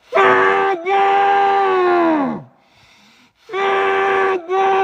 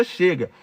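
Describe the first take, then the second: First: Two huge screams, far higher and louder; desperate shouted Chega into a cloth; screaming. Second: Said in the usual way. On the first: Shown as a demonstration. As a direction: scream Chega until the voice cracks. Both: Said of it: "ó, grita".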